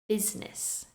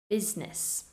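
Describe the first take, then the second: No difference in how they are said.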